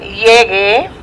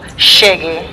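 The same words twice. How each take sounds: First: The first sound is a plain y sound. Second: The first sound is said the Argentinian way. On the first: "which is like Y E" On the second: "Argentinians who go llegue"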